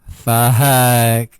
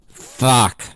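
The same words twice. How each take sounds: First: It sounds joyful. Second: It sounds angry.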